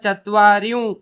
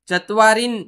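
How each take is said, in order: First: The word ends with a nasalized vowel. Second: The word ends with a full n sound. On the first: The speaker calls it right. "चत्वारिं असं वाचा" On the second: The speaker calls it wrong. "चत्वारीन न वाजता"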